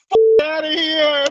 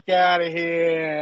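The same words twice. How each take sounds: First: Slow, loud New York brush-off, pitched up; retold New York phone yell. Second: Slow drawn-out New York dismissal; lazy New York brush-off; New York accent. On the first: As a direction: bark it like a guy yelling on the phone. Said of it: "and he goes". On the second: Retold or imitated. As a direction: stretch it like a fed-up New Yorker. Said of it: "With the New York accent".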